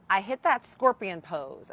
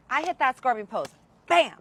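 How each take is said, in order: First: Said in the usual way. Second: Excited. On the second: Retold or imitated. Climax of the story.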